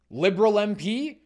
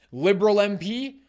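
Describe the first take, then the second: No difference in how they are said.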